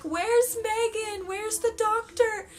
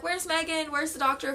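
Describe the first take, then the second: First: Frantic asking. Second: Said in the usual way. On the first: Retold or imitated. Panicking mid-labour, asking for help.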